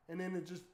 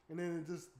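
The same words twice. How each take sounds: The two takes are said the same way.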